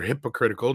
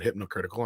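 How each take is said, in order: First: The word is said without an n sound. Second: The word is said with an added n sound. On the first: The speaker calls it right. "Or hypocritical" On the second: The speaker calls it wrong. "not hypnocritical"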